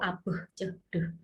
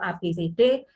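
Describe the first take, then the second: First: The letters are said as short bare sounds. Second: The letters are said as their full names. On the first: These are the sounds the letters make. "fonem itu A B C D" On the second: These are the names of the letters. "nama huruf itu A B C D"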